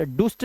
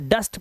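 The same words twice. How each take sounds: First: डुस्ट with an "oo" vowel; wrong pronunciation. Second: डस्ट with a short "uh"; correct pronunciation. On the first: Teacher warning pupils, डुस्ट misread with "oo". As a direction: say डुस्ट as "doost". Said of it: "डुस्ट नहीं पढ़ेंगे". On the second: Teacher showing the rule, डस्ट with short "a". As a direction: say डस्ट rhyming with "must". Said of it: "sir डस्ट पढ़ेंगे". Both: Shown as a demonstration.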